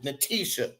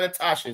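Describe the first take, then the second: First: The middle vowel sounds like 'ee'. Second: The middle vowel sounds like 'ah'. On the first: The speaker calls it right. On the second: The speaker calls it wrong. "not Natasha"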